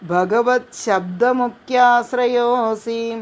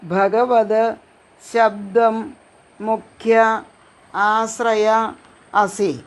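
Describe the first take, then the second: First: The words are run together into one word. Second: The words are said separately with a pause.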